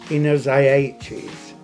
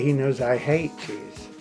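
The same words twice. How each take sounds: First: The h in 'hate' is dropped. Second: The h in 'hate' is clearly pronounced.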